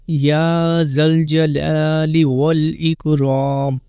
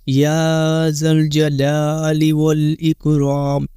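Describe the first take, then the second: Both takes have the same delivery.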